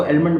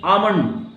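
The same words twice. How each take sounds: First: आलमंड with the L pronounced; L wrongly sounded. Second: आमंड with no L, long first vowel; silent L. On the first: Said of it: "जो नहीं जानते इसको आलमंड बोलते हैं". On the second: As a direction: say आमंड, dropping the L. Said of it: "इसको क्या बोलते हैं?". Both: Shown as a demonstration.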